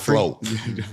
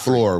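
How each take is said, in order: First: It is said with a Southern accent. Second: It is said with a general, non-Southern accent. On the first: "In the South, we we have a different language" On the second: "We don't say"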